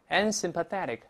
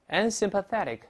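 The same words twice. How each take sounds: No difference in how they are said.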